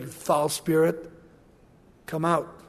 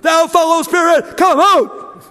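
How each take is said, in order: First: It is said in a calm, quiet voice. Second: It is shouted loudly and dramatically.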